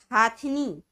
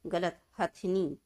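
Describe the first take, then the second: First: हाथनी said loud with a long आ; wrong long vowel. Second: हथनी slow with a short first vowel; correct short vowel, slow. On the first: Teacher sounds out the wrong हाथनी for pupils. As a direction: stretch the हा of हाथनी. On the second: Teacher slowly corrects हाथनी to हथनी. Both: Shown as a demonstration.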